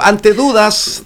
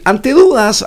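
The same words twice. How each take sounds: First: Said in the usual way. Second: A sudden crack on the words. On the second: Real, not acted. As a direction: voice cracks up high. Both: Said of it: "ay, me salió un gallo".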